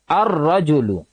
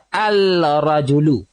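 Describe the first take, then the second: First: The l merges into a doubled r sound. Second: The l is clearly heard before the r. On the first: The speaker calls it right. "Kita kena baca ar-rajulu" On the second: The speaker calls it wrong. "Jadi kita tak boleh baca al-rajulu"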